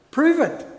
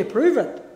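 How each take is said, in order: First: Prove it, pitched up high and pressed hard; insistent repeat. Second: Said in the usual way. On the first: Retold or imitated. Preacher voicing a doubter's dare, high insistent repeat. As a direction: push the challenge, Prove it, up high.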